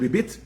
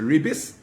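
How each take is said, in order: First: The word ends with a t sound. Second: The word ends with an s sound.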